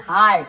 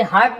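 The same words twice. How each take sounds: First: हार्ट with a long open aa; correct long आ. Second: हर्ट with a short uh vowel; wrong short vowel. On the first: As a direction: stretch the vowel in हार्ट. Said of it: "ई ए का उच्चारण आ होता है". (हार्ट में लंबा आ) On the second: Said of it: "इसे हर्ट नहीं पढ़ रहे हम". (हर्ट में छोटा अ, गलत उच्चारण) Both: Shown as a demonstration.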